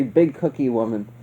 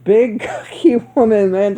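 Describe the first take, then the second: First: Big cookie woman said low, soft and straight; flat, serious big cookie woman; a hint of dead-serious Loomis; deadpan Loomis. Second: Laughing through big cookie woman; real giggle mid-phrase. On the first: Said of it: "Just hearing Loomis say". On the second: Real, not acted. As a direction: breaks up laughing on the word cookie. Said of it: "I was dying".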